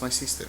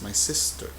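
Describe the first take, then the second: First: The vowel in sister is a long 'ee'. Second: The vowel in sister is a short 'i'. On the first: The speaker calls it wrong. "no es my sister" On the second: The speaker calls it right. "es my sister"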